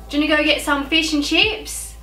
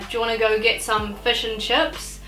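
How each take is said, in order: First: It is spoken in an Australian accent. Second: It is spoken in a New Zealand accent. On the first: "Whereas an Australian will say" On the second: "being a Kiwi, I would say"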